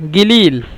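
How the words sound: The word begins with a hard g sound. This is how Saudis say it. "সৌদিরা বলে গিলিল কফকে গয়ন"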